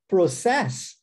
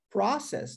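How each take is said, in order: First: Pro-CESS, punched on "cess"; stress on last syllable. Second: PRO-cess, weight on the first syllable; stress on first syllable. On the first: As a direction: hit the final syllable of "process" hard. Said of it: "na última sílaba". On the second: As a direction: hit "pro" in "process", let "cess" drop. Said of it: "der ênfase à primeira sílaba". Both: Shown as a demonstration.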